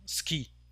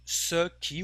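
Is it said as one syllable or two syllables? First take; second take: one syllable; two syllables. First: It is squeezed into one syllable. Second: It is said fully as two syllables. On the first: "we have an abbreviation which is ski" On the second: "instead of uh, saying ce qui"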